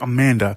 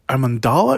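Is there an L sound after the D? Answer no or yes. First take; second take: no; yes. First: The name has no L sound after the D. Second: The name has an L sound after the D. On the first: The speaker calls it wrong. "I'm always mispronouncing it because I always want to say Amanda" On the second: The speaker calls it right. "because she has an L right after the D"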